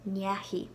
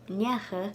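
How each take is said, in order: First: The word ends with a 'hee' sound. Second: The word ends with a short 'ha' sound. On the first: A noun or name follows it. "before nouns and like proper names, it's pronounced Nyahi" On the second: A personal pronoun follows it. "only pronounced Nyacha before personal pronouns"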